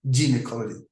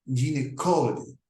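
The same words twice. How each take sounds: First: Gynecology said with a hard G, like guy. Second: Gynecology said with a soft G, like zh, jin-ecology. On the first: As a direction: start gynecology with a hard G sound. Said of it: "usually pronounced with a hard G". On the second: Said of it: "soft G is used, as in". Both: Shown as a demonstration.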